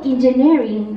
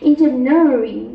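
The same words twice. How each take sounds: First: The r is a plain, unpressed sound. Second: The r is retroflex and strongly pressed.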